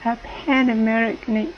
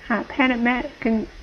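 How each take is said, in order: Both takes have the same delivery.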